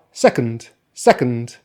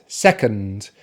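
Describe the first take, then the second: First: "second" with no vowel between C and N D; "second" ending in a syllabic N D; without schwa. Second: "second" slowly, with a schwa before the final N D; careful "second", schwa kept. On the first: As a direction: go from "sec" straight into N D in "second". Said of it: "Now without the schwa". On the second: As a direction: say "second" with an audible reduced vowel in "ond". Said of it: "So with the schwa". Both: Shown as a demonstration.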